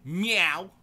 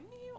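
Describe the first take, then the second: First: Big loud meow, high and rising; barking meow. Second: Tiny, very high, soft mew; timid meow. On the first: Twenty-year-old cat announcing herself, blaring meow. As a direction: belt out a bold cat yowl. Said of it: "the equivalent of a cat barking". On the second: How the cat was before, timid meow. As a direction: squeak out a shy little cat meow. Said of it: "all timid". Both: Retold or imitated.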